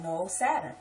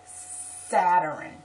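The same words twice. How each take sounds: First: "Saturn" in two syllables, SAT-ern; firm two-syllable "Saturn"; correcting. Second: "Saturn" loud and slow as SAT-er-in; mock emphatic three-syllable "Saturn"; mimicking relatives. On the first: Retold or imitated. Speaker correcting relatives, "Saturn" as SAT-ern. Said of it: "And I'm like". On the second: Relatives answering her correction, loud "Saturn" as Saturin. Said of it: "And they'll be like".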